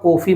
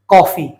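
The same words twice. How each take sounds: First: The first vowel is a closed 'o' sound. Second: The first vowel is an open 'aw' sound. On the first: The speaker calls it wrong. "ना कॉफी बोलते हैं" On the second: The speaker calls it right. "क्या बोलते हैं?"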